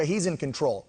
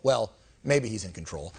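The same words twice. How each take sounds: First: Said in the usual way. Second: Sarcastic second thought, maybe stretched; doubtful retake. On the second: Shown as a demonstration. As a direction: lean hard on maybe, sounding unsure.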